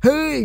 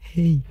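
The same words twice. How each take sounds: First: It is called loudly. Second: It is called quietly.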